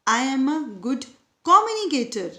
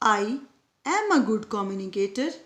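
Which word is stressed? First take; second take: communicator; am. First: The stress falls on the word 'communicator'. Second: The stress falls on the word 'am'.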